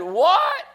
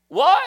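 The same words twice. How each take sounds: First: A very high, loud "What?" in disbelief; a teenager's stunned "What?"; astonished what. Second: A shocked "What?" shot up very high and loud; astonished what. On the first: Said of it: "And he said". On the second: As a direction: blurt it out in disbelief. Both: Acted.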